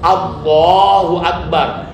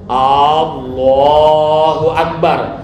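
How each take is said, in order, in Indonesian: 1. Vokal pembukanya pendek dan cepat. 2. Vokal pembukanya dipanjangkan. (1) "A-nya harus cepat" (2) "Tidak boleh A-nya lambat. ... Itu tidak benar"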